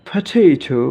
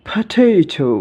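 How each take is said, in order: No difference in how they are said.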